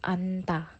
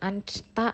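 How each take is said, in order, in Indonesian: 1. Hanya n yang dibunyikan sebelum ta. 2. Baik n maupun s dibunyikan sebelum ta. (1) "tapi anta" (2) "bukan ansta"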